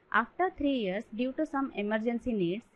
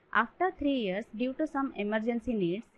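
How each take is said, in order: No difference in how they are said.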